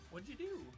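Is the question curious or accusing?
curious. It is asked in a curious tone.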